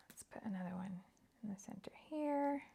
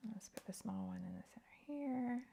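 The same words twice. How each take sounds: First: Whispering to herself while crafting; soft unvoiced murmur as she works. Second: Whispered self-talk, placing pieces. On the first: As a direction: breathe it out under her breath. Crafting, muttering to self. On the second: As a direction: say it under your breath, just for you. Repeats the line while placing pieces. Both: Real, not acted.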